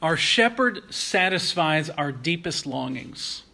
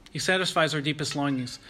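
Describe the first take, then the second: First: Slow, weighty, every word placed; slow emphatic statement. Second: Faster, stress on satisfies; quick restatement. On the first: Preacher announcing his first point, slow and deliberate. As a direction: lay down the main point slowly. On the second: Preacher repeating his point to the congregation, quick with stress on satisfies. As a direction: rattle it off again leaning on satisfies. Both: Acted.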